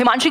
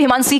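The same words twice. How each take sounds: First: The last syllable starts with an 'sh' sound. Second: The last syllable starts with an 's' sound. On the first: The speaker calls it right. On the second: The speaker calls it wrong.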